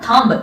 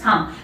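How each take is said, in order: First: A b sound is heard at the end. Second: No b sound is heard at the end. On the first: The speaker calls it wrong. "It is not थंब" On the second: The speaker calls it right. "It is थंब, बी silent"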